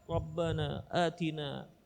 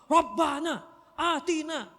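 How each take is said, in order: First: It is said quietly and with concentration. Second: It is said loudly and boisterously. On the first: One is praying with inner focus. The speaker calls it right. "kalau kita kita konsentrasi" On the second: A neighbour prays aloud and disturbs others. The speaker calls it wrong. "orang samping bersuara rame-rame"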